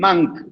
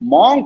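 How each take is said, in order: First: The vowel is kept short. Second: The vowel is stretched out long. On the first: The speaker calls it right. "That's the right way" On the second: The speaker calls it wrong. "சொல்லக்கூடாது, நீட்டக்கூடாது"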